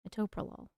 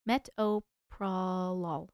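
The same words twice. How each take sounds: First: Said in the usual way. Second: Metoprolol drawn out slowly, syllable by syllable; sounding it out. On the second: Shown as a demonstration. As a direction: stretch each part of metoprolol, low and slow. Trying out pronunciations, first take.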